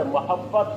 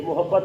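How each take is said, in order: First: محبت said with a short a in the first syllable, mahabbat; the correct reading محبت with zabar on m; teacher correcting محبت to ma-habbat for the class; correct vowel. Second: محبت said with u in the first syllable, muhabbat; the mistaken reading محبت with a short u after m; teacher showing the common wrong form محبت as mu-habbat; wrong vowel. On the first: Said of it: "میم کی زبر ہے، محبت". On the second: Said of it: "میم کی زبر ہے". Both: Shown as a demonstration.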